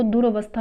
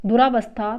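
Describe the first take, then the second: First: दुरवस्था with short "ra"; short a after r in दुरवस्था; correct form. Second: दुरावस्था with long "raa"; long aa after r in दुरावस्था; wrong form. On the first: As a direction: say दुरवस्था as du-ra-VAS-tha. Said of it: "ये शुद्ध है". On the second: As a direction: say दुरावस्था as du-RAA-vas-tha. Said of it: "ये अशुद्ध है". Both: Shown as a demonstration.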